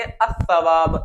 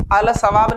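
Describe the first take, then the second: First: अस-सवाब with the L merged into a doubled S; correct sun-letter reading. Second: अल-सवाब with a full clear L before सवाब; wrong assimilation shown. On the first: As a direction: say अस-सवाब, लाम silent, S doubled. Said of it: "क्या पढ़ेंगे?". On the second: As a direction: say अल-सवाब keeping the लाम sounded. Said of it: "अल-सवाब नहीं पढ़ सकते". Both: Shown as a demonstration.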